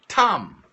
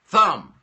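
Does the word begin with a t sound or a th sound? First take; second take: t; th. First: The word begins with a hard t sound. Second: The word begins with a soft th sound. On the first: The speaker calls it wrong. "I would turn around and say" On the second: The speaker calls it right. "they would show a the word thumb"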